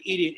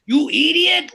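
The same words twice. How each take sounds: First: Said in the usual way. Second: Put-on shouted, high Indian-accented "You idiot!" like Ren; old Indian man accent. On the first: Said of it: "how every brown man says when they say the word". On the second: Comic mimicking how older Indian men say "idiot", loud Indian accent. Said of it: "when old Indian men say the word idiot".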